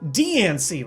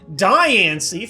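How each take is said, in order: First: The first syllable does not sound like 'diamond'. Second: The first syllable sounds like 'diamond'. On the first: The speaker calls it right. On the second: The speaker calls it wrong.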